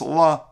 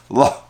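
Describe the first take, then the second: First: The word ends on a bare vowel. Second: The word ends with an audible guttural h. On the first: "it's just la" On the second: "you pronounce the hey in some way with a guttural sound"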